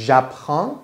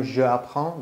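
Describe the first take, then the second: First: "J'apprends" run together as zhap-ran; elided je. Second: "je apprends" with a separate zhuh before the vowel; wrong, unelided form. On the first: Teacher showing the contracted form, elided "J'apprends". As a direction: join zh straight onto the vowel in "J'apprends". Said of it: "چرا شده ژ؟". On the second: Teacher showing what is not said, unelided "je apprends". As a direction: keep "je" and "apprends" apart, both vowels sounded. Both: Shown as a demonstration.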